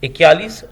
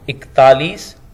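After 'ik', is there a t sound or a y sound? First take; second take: y sound; t sound. First: A y sound follows the first syllable. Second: A t sound follows the first syllable. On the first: The speaker calls it wrong. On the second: The speaker calls it right.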